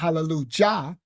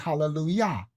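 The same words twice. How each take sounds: First: The last syllable starts with a J sound. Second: The last syllable starts with a Y sound. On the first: The speaker calls it wrong. "You're not saying hallelujah" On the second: The speaker calls it right. "You're saying hallelujah"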